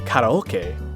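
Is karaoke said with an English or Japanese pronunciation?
Japanese. It is said with Japanese pronunciation. Listeners would not recognize the word. "what the hell is that?"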